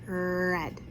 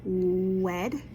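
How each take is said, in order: First: It begins with a clear R sound. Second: It begins with a rounded W sound. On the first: The speaker calls it right. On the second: The speaker calls it wrong.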